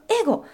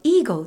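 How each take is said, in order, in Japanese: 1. 最初は短い'e'の音です。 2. 最初は長い'ee'の音です。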